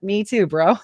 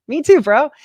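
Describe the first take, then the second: First: Said in the usual way. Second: Higher, louder with a laugh; laughing mockery. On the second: Mocking the pilot, laughing, higher and louder. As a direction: laugh it in his face. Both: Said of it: "I was like".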